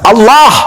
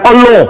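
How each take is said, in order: First: The vowel is an open 'a' sound. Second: The vowel is a rounded 'o' sound. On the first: The speaker calls it right. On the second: The speaker calls it wrong. "Bukan Allah"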